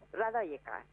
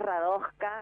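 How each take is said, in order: First: The J is said as an i glide. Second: The J is said as a consonant. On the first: "había una señora serbia justamente y nos dijo Radoika" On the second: "Para nosotros es Radoska, así en argentino"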